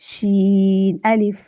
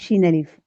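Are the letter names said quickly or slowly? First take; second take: slowly; quickly. First: The two letter names are said slowly. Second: The two letter names are said quickly. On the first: The speaker calls it right. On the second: The speaker calls it wrong.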